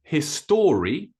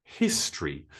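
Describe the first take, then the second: First: History mispronounced as his-STORY, with a full O; wrong three syllables. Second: History in two syllables, HIS-tree; O disappears. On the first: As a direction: say history slowly as his-STOR-ee. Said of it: "It's not history". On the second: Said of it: "that O actually disappears a little bit". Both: Shown as a demonstration.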